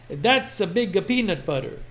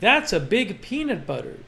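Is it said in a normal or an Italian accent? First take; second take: Italian; normal. First: It is said in a put-on Italian accent. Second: It is said in the speaker's normal accent.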